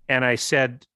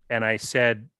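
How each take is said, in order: No difference in how they are said.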